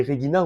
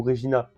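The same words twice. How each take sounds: First: "Regina" pronounced re-GHEE-na; hard-G Latin "Regina". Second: "Regina" pronounced re-ZHEE-na; French soft-G "Regina". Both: Shown as a demonstration. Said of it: "je sais pas si on dit Regina ou".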